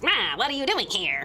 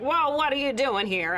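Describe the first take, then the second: First: It is said in a put-on Ferengi voice. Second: It is said in a near-normal voice.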